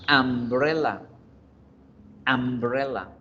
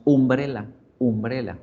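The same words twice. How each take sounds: First: Umbrella begun with an A sound, "ambrela"; pronounced with A. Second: Umbrella begun with a Spanish U, "oombrela"; common mispronunciation. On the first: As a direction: model umbrella for students, opening on "am". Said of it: "se pronuncia con A". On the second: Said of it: "la pronunciamos umbrella". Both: Shown as a demonstration.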